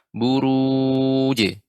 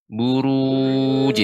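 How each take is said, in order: First: The final j is released with a bounce. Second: The final j is released with a bounce.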